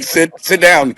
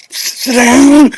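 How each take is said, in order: First: Said in the usual way. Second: Put-on higher, sharp "Sit down" to a kid; almost yell "Sit down" at the bouncing boy; mock yell. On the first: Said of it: "but you can't". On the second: Shown as a demonstration. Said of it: "You wanna yell".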